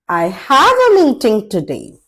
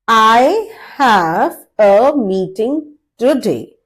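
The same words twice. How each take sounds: First: It is said fast and fluently. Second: It is said at medium speed.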